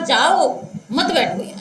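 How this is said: The pause comes after 'jao', grouping 'mat baitho'.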